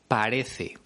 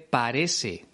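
First: The c is pronounced as a th sound. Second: The c is pronounced as an s sound. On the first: "en vez de" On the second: "ejemplos de seseo, que consiste en pronunciar el sonido de la S en lugar del sonido de la Z"

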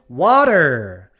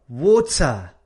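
First: It is said in an American accent. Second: It is said in a British accent.

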